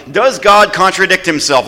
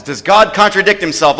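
First: Raised, ringing question to the church; emphatic question. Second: Raised question, pressing for an answer; emphatic question. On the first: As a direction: throw the question out to the crowd. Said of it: "I want you all to answer loudly". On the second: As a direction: push the crowd to answer. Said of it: "be really emphatic about this". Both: Real, not acted.

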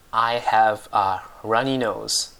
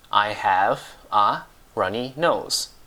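First: Said in the usual way. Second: "I have a runny nose" slowly, a small gap after each word; slow word-by-word model. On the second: Shown as a demonstration. Teacher repeats the English for a dripping nose, slow separated "I have a runny nose".

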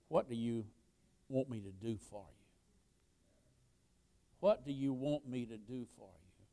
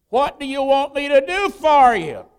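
First: Very soft, low, intimate appeal; hushed question. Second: Loud, high preacher's delivery; booming question. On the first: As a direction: ask it gently, almost under the breath. Jesus's question put softly to congregation. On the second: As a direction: throw the question out at full voice. Preacher voices Jesus's question forcefully. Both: Acted.

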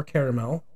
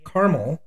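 First: Caramel said as "KARE-uh-mel"; three-syllable caramel. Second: Caramel said as "KAR-mul"; two-syllable caramel. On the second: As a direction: say caramel as car-mul, without a middle vowel. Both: Shown as a demonstration. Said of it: "however you prefer".

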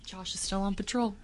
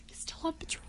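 First: Said in the usual way. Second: Spooky teasing whisper; giggly prank whisper. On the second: Pretend. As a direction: breathe it like a ghost prank. Teasing spooky joke repeated.

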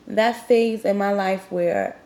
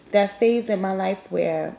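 Both takes have the same delivery.

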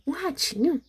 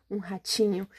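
First: Higher, curious question; surprised echo. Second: Said in the usual way. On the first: Acted. Gruffalo echoing the mouse, pleased to find food, surprised. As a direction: pick up the word with glee.

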